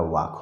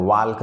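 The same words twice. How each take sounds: First: वाक said with no L, like wawk; the L dropped, वाक as vowel then k; silent L. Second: वाल्क said with the L sounded, walk; the teacher shows the wrong way, वाल्क with a clear L; wrong pronunciation with L. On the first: Teacher giving the right form, वाक without any L. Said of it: "वाक होता है". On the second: Teacher showing students the mistake, वाल्क with the L voiced. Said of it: "तो वाल्क नहीं होता है". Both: Shown as a demonstration.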